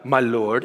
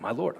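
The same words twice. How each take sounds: First: It is said in a grand, solemn way. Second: It is said in a plain, casual way.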